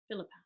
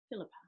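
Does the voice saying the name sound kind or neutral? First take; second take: neutral; neutral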